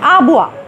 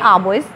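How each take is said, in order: First: It is said the French way, ending in 'wa'. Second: It is read as spelled, ending in an s. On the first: "चूँकि ये एक French word है इसलिए इसकी प्रोनाउंसिएशन है आबुआ" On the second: "हम इसको लिखेंगे आबोइस"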